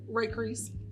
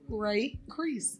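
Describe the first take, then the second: First: The name is said quickly. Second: The name is said slowly.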